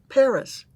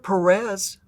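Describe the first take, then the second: First: The stress is on the first syllable. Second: The stress is on the second syllable. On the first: The speaker calls it right. "at least stress the right syllable" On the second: The speaker calls it wrong. "it's not Perez"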